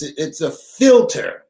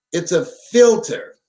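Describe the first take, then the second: First: Said in the usual way. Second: "filter" leaned on, said slowly with a falling close; slow, stressed repeat. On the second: Shown as a demonstration. Telling the crowd to follow him, stresses "filter" slowly. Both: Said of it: "Listen to me, follow me".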